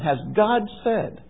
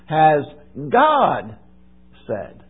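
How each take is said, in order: First: The stress falls on the word said. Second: The stress falls on the word God. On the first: It asks whether any speaking happened at all. "Did God speak?" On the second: It asks whether the words came from God or someone else. "let me put the emphasis on a different word"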